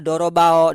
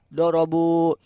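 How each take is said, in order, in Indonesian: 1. Kata ini berakhir dengan bunyi 'ao'. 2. Kata ini berakhir dengan bunyi 'u'. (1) "tidak dibaca dorobao" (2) "tapi dibaca doma dorobu"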